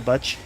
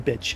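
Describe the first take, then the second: First: The vowel of the word sounds odd and distorted. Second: The vowel of the word sounds plain and ordinary. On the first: The speaker calls it wrong. "I said bitch weird" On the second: The speaker calls it right. "that's how you say it. That's how a man says it"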